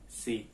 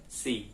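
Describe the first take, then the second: No difference in how they are said.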